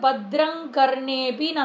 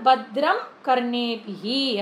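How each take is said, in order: First: The first word ends in ng, joined to the next. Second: The first word ends in m, said separately. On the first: "சேர்ந்து சொல்லும் போது" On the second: "தனித்தனியா சொல்லும் போது"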